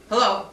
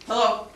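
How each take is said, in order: Both takes have the same delivery.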